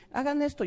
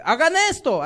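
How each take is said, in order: First: Said in the usual way. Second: "Hagan esto" barked out louder, "Hagan" hit hard; strong commanding voice. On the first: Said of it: "así mi nivel de voz está así". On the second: Shown as a demonstration. Preacher showing how bosses order people around, loud commanding voice. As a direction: command it with full authority. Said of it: "poniendo voz más fuertes".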